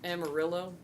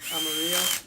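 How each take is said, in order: First: The name is said with an English-style pronunciation. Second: The name is said with a Spanish-style pronunciation. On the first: This is how the place is called locally. The speaker calls it wrong. "it was called Amarillo" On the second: This is how the name is supposed to be. The speaker calls it right. "clearly it's supposed to be Amarillo"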